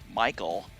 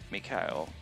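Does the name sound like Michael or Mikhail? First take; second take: Michael; Mikhail. First: The name is said like the English name Michael. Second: The name is said in a foreign way, like Mikhail. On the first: The speaker calls it wrong. "as we Americans like to do" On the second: The speaker calls it right. "I believe that's how it's actually pronounced"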